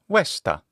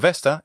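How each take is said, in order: First: It is said with a Latin pronunciation. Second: It is said with an English pronunciation.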